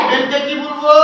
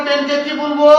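No difference in how they are said.

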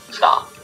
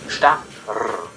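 First: The word is said as one syllable. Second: The word is split into two syllables. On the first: "Or you would simply pronounce it as 1 syllable" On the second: "you would have a syllable, you would go sta, rr"

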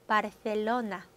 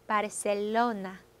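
First: The middle consonant is a th sound. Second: The middle consonant is an s sound. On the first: This is how people in Spain say it. "먼저 스페인 스타일로 한번 해볼까요? 혀 한번 물고" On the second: This is how people in Latin America say it. "중남미 스타일로 하면 그냥 S 발음"

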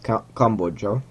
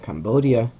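First: The word is pronounced the Hungarian way. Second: The word is pronounced the Irish way. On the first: "because I'm Hungarian, we pronounce it Cambodja" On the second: "in Ireland they pronounce it Cambodia"

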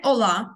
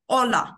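First: The stress is on the last syllable. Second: The stress is on the first syllable. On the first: The speaker calls it wrong. "Не hola" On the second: The speaker calls it right. "у нас наголос на передостанній склад"

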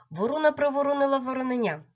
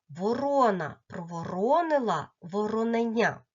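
First: The phrase is said at the fastest pace. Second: The phrase is said a little faster. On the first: "І ще швидше" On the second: "А тепер разом і трішки швидше"

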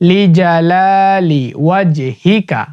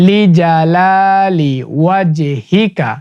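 The two takes are said the same way.

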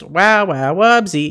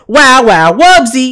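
First: It is said with little energy. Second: It is said with lots of energy.

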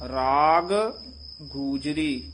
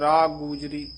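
First: Both g sounds are pronounced separately. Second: The two g sounds run together quickly. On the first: The speaker calls it right. "ਦੋ ਗੱਗੇ ਆ ਗਏ ਹਨ" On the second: The speaker calls it wrong. "ਜਦੋਂ ਛੇਤੀ ਬੋਲਦੇ ਹਾਂ ਤਾਂ ਇਉਂ ਬੋਲ ਜਾਂਦੇ ਹਾਂ"

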